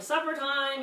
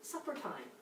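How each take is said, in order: First: Calling Supper time up the stairs a bit louder and higher; mock yelling. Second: Supper time said low and soft, no edge; calm call. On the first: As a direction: call Supper time up the stairs like a half-hearted yell. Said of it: "And you're yelling". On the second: Retold or imitated. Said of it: "Instead, I go down and go".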